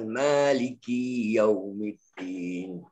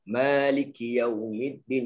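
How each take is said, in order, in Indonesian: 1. Suku kata ki memiliki vokal panjang. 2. Suku kata ki memiliki vokal pendek. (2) "ki dia kena pendek lah"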